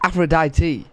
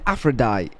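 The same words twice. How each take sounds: First: Aphrodite is said like the video's pronunciation. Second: Aphrodite is said in the speaker's old pronunciation. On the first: The speaker calls it right. "It's Aphrodite" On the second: The speaker calls it wrong. "I was saying Aphrodite"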